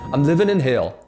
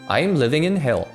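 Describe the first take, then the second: First: 'I'm' is flat 'ahm' and 'living' ends in '-in'. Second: 'I'm' glides and 'living' ends in '-ing'. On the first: "ing이 아니라 in으로 발음하게 되는" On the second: "이렇게 얘기하면 되는데"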